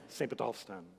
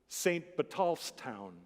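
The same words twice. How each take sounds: First: The phrase is said quickly and run together. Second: The phrase is said at a normal pace.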